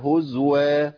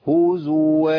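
First: The z has no vowel after it. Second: The z is followed by a u vowel. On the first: The speaker calls it wrong. "اسكان ازاي في هزوا" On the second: The speaker calls it right. "فنقول ايه؟"

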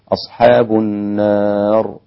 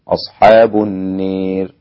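First: The long vowel is a fully open a. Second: The long vowel is pronounced close to e. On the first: "هكذا بالفتح" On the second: "بالإمالة"

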